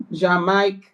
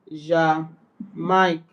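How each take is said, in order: First: Said in the usual way. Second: "Jamaica" slowly in two parts, "zha... mike"; syllables separated. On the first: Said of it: "both vowels are to be pronounced". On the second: Shown as a demonstration. Learner showing the trema example, "Jamaica" slowly split as "zha... mike". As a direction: break "Jamaica" after the first syllable, French style.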